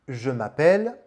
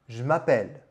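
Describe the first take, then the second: First: The vowel of 'je' is fully pronounced. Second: The vowel of 'je' is dropped.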